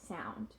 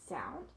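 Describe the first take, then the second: No difference in how they are said.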